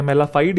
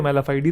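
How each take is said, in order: First: मेलाफाइड ending on the d sound; short ending variant. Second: मेलाफाइडी with a final ee; long-ee ending variant. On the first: Teacher showing both accepted forms, मेलाफाइड ending on d. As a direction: say मेलाफाइड with no final vowel. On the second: Teacher showing both accepted forms, मेलाफाइडी ending in ee. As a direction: add an ee after the d in मेलाफाइडी. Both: Shown as a demonstration. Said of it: "दोनों बोल सकते हैं".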